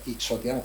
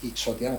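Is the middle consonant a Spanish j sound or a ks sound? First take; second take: ks sound; ks sound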